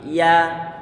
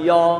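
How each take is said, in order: First: The vowel is an open 'a'. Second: The vowel is rounded, like 'o'. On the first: The speaker calls it right. "tapi ya" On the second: The speaker calls it wrong. "Jadi bukan yo"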